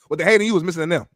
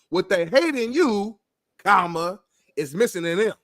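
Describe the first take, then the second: First: It is fast with no pause after 'you'. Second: It is slow with a pause after 'you'. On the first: "if you say it fast, you don't need no comma" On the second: "you could say it slow and put a comma in there"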